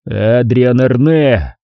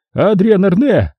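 First: «Адриан Арне!» said slowly, level and flat; even voice. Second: «Адриан Арне!» blurted high in panic; panicked. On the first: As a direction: state «Адриан Арне!» calmly, drawn out. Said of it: "ровным голосом повторил я". («Адриан Арне!» ровно и медленно) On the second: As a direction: scream «Адриан Арне!» desperately. Caretaker blurting the name. («Адриан Арне!» высоко, в панике) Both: A narrator's reading.

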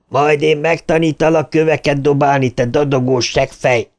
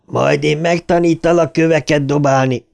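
First: A taunting cry, pitch up, edging toward a scream; half laughing, half screaming. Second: A light jeering sneer, a bully calling out; mocking taunt. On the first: Harry screams at Bill, half laughing. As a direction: jeer with a crazed half laugh. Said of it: "Harry félig nevető, félig sikoltó hangja". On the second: Harry jeers at the hiding kids, mild mocking taunt. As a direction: taunt them from the bushes, mockingly. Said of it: "Harry csúfondáros hangja". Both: A narrator's reading.

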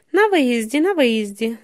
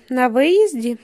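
First: Mildly pleased, repeated confirmation; satisfied confirmation. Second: "На виїзді" asked back as a question; questioning echo. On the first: Yellow-toothed man confirms where the motel is, mildly satisfied. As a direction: confirm it twice with a touch of satisfaction. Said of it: "задоволено підтверджує жовтозубий". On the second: Companions ask the yellow-toothed man again about the motel, questioning. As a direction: query "виїзді" as if checking. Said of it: "перепитують його". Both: A narrator's reading.

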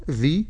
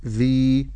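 First: "ذي" as dhi, tongue between teeth, short vowel; short vowel syllable. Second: "ذي" as dhii with a long held ee; lengthened vowel. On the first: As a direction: spell out "ذي" with a brief kasra. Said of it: "ذال كسرة ذي". ("ذي" بكسرة قصيرة) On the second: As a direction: stretch the vowel of "ذي". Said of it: "مد بالياء ذي". ("ذي" بمد الياء) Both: Shown as a demonstration.

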